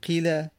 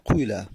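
First: The first vowel is a pure i sound. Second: The first vowel is a u sound. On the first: "یکی قاله مجهول بکنیم قیله" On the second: "یکی دم نبیدیم قیله"

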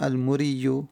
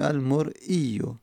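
First: The word is said without a glottal stop. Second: The word is said with a glottal stop. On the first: The speaker calls it wrong. "نگفتیم المرئیو" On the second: The speaker calls it right. "گفتیم المرئیو"

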